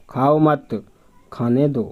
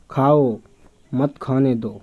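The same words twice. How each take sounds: First: खाओ मत joined, then a break; group खाओ मत together, then खाने दो; खाओ मत, short pause, खाने दो apart; pause after मत. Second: खाओ alone, then a break; खाओ set apart from मत खाने दो by a pause; pause after खाओ. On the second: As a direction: stop on खाओ, then मत खाने दो as one phrase. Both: Shown as a demonstration. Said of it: "अल्प विराम चिन्ह का प्रयोग".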